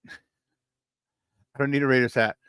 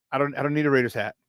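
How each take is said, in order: First: Slow laughing repeat. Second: Quick brush-off. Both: Real, not acted. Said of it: "repeats the line laughing".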